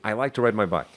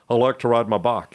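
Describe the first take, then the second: First: It is spoken in a neutral American accent. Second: It is spoken in a strong Texas accent. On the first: The speaker calls it right. "repeat after me" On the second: The speaker calls it wrong. "And he'd say, no"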